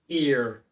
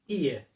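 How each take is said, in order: First: The final R is strongly pronounced. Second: The final R is not pronounced. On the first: "it's always pronounced and it sounds very strong" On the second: "the R sound isn't always pronounced"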